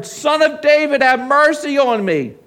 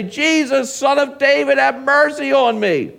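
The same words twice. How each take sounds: First: Crying out harder. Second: High, loud plea for mercy; crying out. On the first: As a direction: cry out all the more insistently for mercy. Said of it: "crying out all the more". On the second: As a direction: cry out like a beggar calling over a crowd. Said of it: "he began to cry out". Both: Acted.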